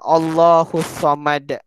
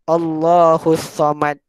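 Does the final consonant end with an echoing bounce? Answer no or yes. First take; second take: Yes; No. First: The final consonant is released with an echoing bounce. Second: The final consonant is closed without a bounce. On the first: The speaker calls it right. "Tapi yang betul dia macam mana?" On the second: The speaker calls it wrong. "Kalau orang yang tak belajar tajwid, mungkin dia akan baca macam ni"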